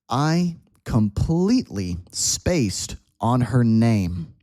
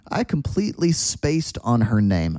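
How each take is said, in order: First: The sentence is spoken at a slow pace. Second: The sentence is spoken at a faster pace. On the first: "Let's start slow" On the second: "a little faster"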